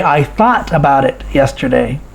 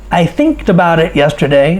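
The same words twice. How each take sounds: First: Said in the usual way. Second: "thinked" said as a normal past, a deliberate mistake; wrong form demo. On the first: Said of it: "No, we say". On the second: Shown as a demonstration. Teacher shows students the wrong past form "thinked", said plainly. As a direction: model the error "thinked" plainly, rhyming with "linked". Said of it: "We don't say thinked".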